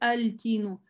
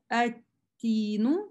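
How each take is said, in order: First: The word starts with an audible l before t. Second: The word starts with a doubled t, no l. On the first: The speaker calls it wrong. "то есть не говорю альтину" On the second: The speaker calls it right. "Смотрите, как читаю"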